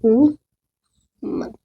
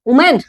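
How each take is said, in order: First: वुमन stretched very slowly, "woo-mun"; correct pronunciation. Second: वुमेन said as "oo-men" with a full e; wrong pronunciation. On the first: Teacher slowly modelling the correct वुमन for the class. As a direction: draw out वुमन slowly with a short u-n ending. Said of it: "ये क्या होता है". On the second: Teacher showing students the wrong वुमेन. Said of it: "वुमेन नहीं होता". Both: Shown as a demonstration.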